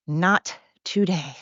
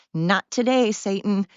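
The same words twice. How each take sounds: First: NOT drawn out, pause, then TODAY; measured, falling "Not... today"; slow emphatic repeat. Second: Said in the usual way. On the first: Real, not acted.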